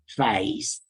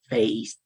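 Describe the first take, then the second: First: The vowel starts low and central, then rises. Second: The vowel starts high and front, then rises. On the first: This is the traditional Cockney pronunciation. "rather than face" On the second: This is how younger London speakers say it. "this sounds more like face"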